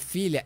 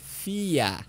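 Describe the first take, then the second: First: The middle 'lh' sound is fully pronounced. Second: The middle 'lh' sound is dropped. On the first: "em vez de falar filha" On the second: "por ter engolido o L e H"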